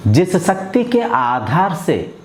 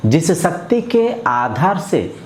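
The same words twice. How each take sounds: The two takes are said the same way.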